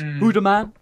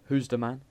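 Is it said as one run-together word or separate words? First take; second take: run-together; separate. First: The first words blur together into one word. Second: The first words are said as separate words. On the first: The speaker calls it right. "it's Hooda man" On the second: The speaker calls it wrong. "not who's the man"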